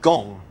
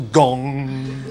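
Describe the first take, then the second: First: Said in the usual way. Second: "gong" held on a ringing hum; long humming "ng" on "gong"; gong imitation. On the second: Shown as a demonstration. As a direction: let "gong" resonate like the struck instrument. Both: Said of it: "which is another onomatopoeic word".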